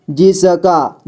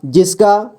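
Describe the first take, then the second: First: जिसका drawn out as जि-स-का; syllable by syllable. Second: Said in the usual way. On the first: Shown as a demonstration. Teacher showing beginners how to read जिसका, syllable by syllable. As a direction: sound out each letter of जिसका. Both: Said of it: "जोड़ जोड़ करके ही पढ़ना होगा".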